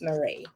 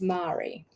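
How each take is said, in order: First: The name has its common everyday pronunciation. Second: The name has a posher-sounding pronunciation. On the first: This is how most people say the name. "most people it's Marie" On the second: This is how the mother's name is said. "It sounds like some posh way of saying Marie"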